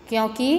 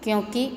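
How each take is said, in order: The two takes are said the same way.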